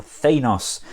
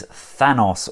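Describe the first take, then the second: First: "Thanos" with a long a, THAY-nos; long-a "Thanos", first syllable drawn out; alternative pronunciation of Thanos. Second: "Thanos" with a short a, as in "than"; first pronunciation of Thanos. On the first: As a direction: say "Thanos" with first vowel as in "day". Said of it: "depending on your pronunciation". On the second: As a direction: say "Thanos" with first vowel as in "fan". Offers two pronunciations of name. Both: Shown as a demonstration.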